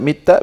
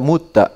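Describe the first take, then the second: First: The first vowel is an i sound. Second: The first vowel is a u sound. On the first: "bisa dibaca mitta" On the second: "bisa dibaca mutta"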